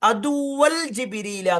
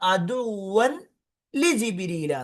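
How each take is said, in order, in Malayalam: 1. 'aduwwal jibrila' എന്ന്, 'li' ഇല്ലാതെയാണ് പറയുന്നത്. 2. 'aduwwan li jibrila' എന്ന്, 'li' യോടെയാണ് പറയുന്നത്. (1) "പല ആളുകളും മനസ്സിലാക്കാതെ അദുവൻ അദുവൽ ജിബിരില എന്ന് പറയും" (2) "അദുവൽ എന്നല്ല, അദുവൻ ലി ജിബിരില എന്നാണ്"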